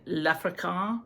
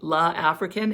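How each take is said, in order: First: The article is elided and joined to the word. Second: The article is a separate syllable before the word. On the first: The speaker calls it right. "I'm pretty sure it should say L'African" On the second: The speaker calls it wrong. "it says La African"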